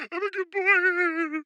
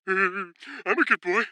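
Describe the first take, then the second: First: Much higher, very slow squeaky plea; pitiful good boy plea. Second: Slow, put-on childlike whine; good boy plea. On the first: Pretend. Kid begging mom again, high pitiful whine. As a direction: beg as pathetically as you can. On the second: Kid begging mom for candy, slow childish plea. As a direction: plead sweetly for an M&M.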